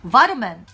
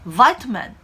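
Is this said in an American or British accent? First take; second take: American; American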